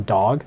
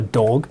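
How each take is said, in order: First: The vowel is an unrounded 'ah' sound. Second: The vowel is a rounded open O sound. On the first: This is how Canadian English says it. "Canadian English, as I'm speaking, this is going to be an ah here" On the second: This is how some other dialects say it. "You get that open O sound"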